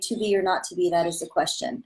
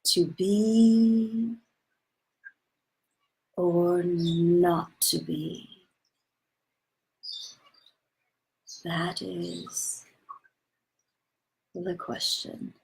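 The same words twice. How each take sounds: First: It is said flatly, without a soothing quality. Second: It is said in a calm, soothing voice.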